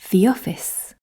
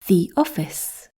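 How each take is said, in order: First: The words run together with no gap. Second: There is a short gap between the words. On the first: "The answers are joined"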